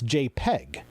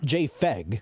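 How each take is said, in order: First: The middle consonant sounds like a P. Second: The middle consonant sounds like an F. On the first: The speaker calls it right. "it's JPEG" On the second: The speaker calls it wrong. "It's not JFEG"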